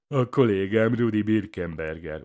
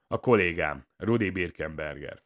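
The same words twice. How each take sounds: First: Loud, higher-pitched parroting; psychopath's jeering echo; mocking imitation. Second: Subdued, matter-of-fact reply; muted and unenthusiastic; dull answer. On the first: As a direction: mimic him tauntingly, pushed louder. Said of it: "utánozza a pszichopata". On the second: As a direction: answer dully, without spirit. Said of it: "felelem tompán". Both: A narrator's reading.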